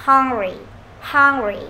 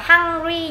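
First: "hungry" with a short, weighted vowel between "a" and "o", falling; heavier HUNGRY vowel. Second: "hungry" said the wrong way with a long, stretched open "a"; mispronounced hungry. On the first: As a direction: say "hungry" with a heavy, rounded first vowel, dropping down. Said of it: "chúng ta đọc hơi nặng". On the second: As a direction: draw out the first vowel of "hungry" as a plain "ah". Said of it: "Đừng đọc là hungry". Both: Shown as a demonstration.

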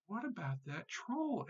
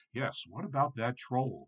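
First: Small high, soft goat voice; tiny billy goat. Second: Lightly voiced middle billy goat; a hint of a mild goat brother; soft-voiced middle goat. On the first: Tiny goat asks his brothers about the troll, little high voice. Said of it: "asked the tiny billy goat Gruff". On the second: Middle goat echoes his little brother's worry, lightly voiced mild goat. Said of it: "in his soft voice". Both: A narrator's reading.

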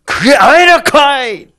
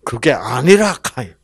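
First: Much higher, louder Gyeongsang bark; Gyeongsang dialect God. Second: Chungcheong dialect God. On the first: Preacher contrasting dialects, forceful Gyeongsang accent. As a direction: hit it hard and high like a Gyeongsang man. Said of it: "경상도 말은 세죠". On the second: Preacher voicing God to Cain, easy Chungcheong accent. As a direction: let it fade off easily, Chungcheong style. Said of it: "충청도에서는 어떻게 해요". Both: Acted.

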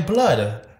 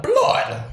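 First: "blood" in a mock London accent; London slang "blood". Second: "Blood" pitched very high in mock London accent; exaggerated London "blood". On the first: Co-host showing London slang, "blood" in mock London accent. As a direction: say "blood" as a faked Londoner would. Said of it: "You say blood". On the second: Co-host correcting London slang, "Blood" high and exaggerated. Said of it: "But not blood". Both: Shown as a demonstration.

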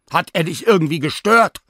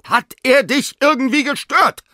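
First: "Hat er dich irgendwie gestört?" asked high and loud, rising on "gestört"; first angry ask, lifting at "gestört"; rising question. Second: "Hat er dich irgendwie gestört" repeated even higher, hitting "er", falling at the end; insistent repeat. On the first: Sina asks the dog, voice rising on "gestört". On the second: Sina repeats the question to the dog, insisting. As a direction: demand it again, leaning hard on "er". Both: Acted. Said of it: "frage ich".

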